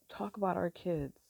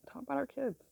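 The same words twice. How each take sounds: First: Said in the usual way. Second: A raised, lingering repeat of the phrase; higher, wistful echo. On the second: Real, not acted. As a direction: repeat it much higher and softer. Repeats phrase, second time higher.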